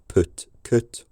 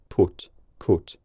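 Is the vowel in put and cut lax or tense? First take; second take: lax; tense. First: The vowel is lax, not tense high back. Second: The vowel is tense with high back tongue. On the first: The speaker calls it wrong. "It's not" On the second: The speaker calls it right. "a very tense high back tongue position"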